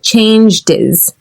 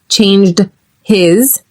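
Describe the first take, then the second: First: The h is dropped and the words link. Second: The h in his is clearly pronounced. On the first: The speaker calls it right. "we get rid of that H altogether" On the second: The speaker calls it wrong. "which is hard to say"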